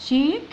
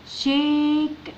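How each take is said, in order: First: Said in the usual way. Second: شيك drawn out very slowly, sound by sound. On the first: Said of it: "الاي الأخيرة لا تنطق". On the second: Shown as a demonstration. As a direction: stretch شيك out, holding the vowel before the final k. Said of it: "وندخل على الكي".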